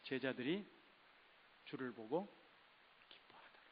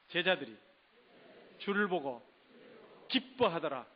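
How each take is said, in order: First: It is said in a plain, flat way. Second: It is said in a joyful way.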